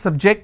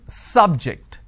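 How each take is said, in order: First: The stress is on the second syllable. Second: The stress is on the first syllable. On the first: It is used as a verb. "So here my stress has moved to the second syllable" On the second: It is used as a noun. "I'm stressing on the first syllable"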